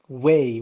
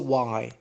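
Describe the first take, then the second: First: The vowel rhymes with 'day'. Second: The vowel rhymes with 'eye'. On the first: The speaker calls it right. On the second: The speaker calls it wrong. "We don't say why"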